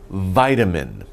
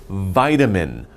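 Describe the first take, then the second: No difference in how they are said.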